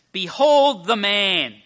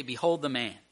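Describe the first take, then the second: First: Slow, high, booming announcement; loud proclamation. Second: Said in the usual way. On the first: Acted. Pilate presenting Jesus to the people, loud proclamation. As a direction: proclaim it to a crowd, stretching each word.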